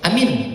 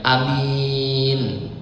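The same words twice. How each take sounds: First: Both vowels are short. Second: The first vowel is short, the second long. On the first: It means make it safe. "Kalau dibaca pendek dua-duanya" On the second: It means honest. "Kalau dibacanya alifnya pendek, ianya panjang"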